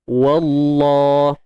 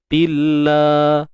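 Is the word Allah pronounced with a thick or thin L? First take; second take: thick; thin. First: The L of Allah is heavy and thick. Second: The L of Allah is light and thin. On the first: "Kalimah Allah yang di sini pula kena tebal" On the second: "Kat sini nipis"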